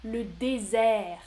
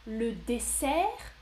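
First: "désert" said slowly with a buzzing Z, /dezɛ/; slow, clear Z. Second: "dessert" said slowly with a voiceless S, /desɛʀ/; slow, clear S. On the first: Teacher contrasts two words for viewers, slow voiced Z. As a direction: stretch out "désert" and buzz the Z. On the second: Teacher contrasts two words for viewers, slow voiceless S. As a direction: stretch out "dessert" and hiss the S. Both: Shown as a demonstration. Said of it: "la même distinction".

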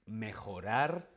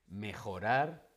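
Both takes have the same delivery.

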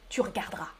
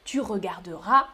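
First: Regarderas softly as r'gard-ras; spoken short form. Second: Regarderas with every E, re-gar-de-ras; full written form. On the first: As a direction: drop both Es in regarderas. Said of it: "On coupe le E". (« regarderas » sans les E, r'gard-ras) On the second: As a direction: sound all four syllables of regarderas. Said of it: "à l'écrit". (« regarderas » avec tous les E, re-gar-de-ras) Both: Shown as a demonstration.

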